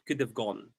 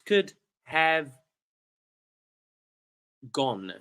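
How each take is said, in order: First: The word 'have' is reduced and run together quickly. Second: The word 'have' is said fully and clearly.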